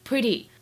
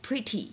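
First: The t is softened toward a d sound. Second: The t is a clear, crisp t sound. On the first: "在美音当中的这个t 会有一些偏向d 的发音" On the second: "不像在英式英语当中需要读成pretty"

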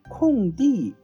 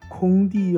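First: The first syllable has a falling tone. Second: The first syllable has a high level tone. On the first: The speaker calls it right. "是闲着没有被利用的" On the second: The speaker calls it wrong. "可千万不要念成"

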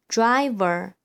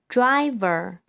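The two takes are said the same way.

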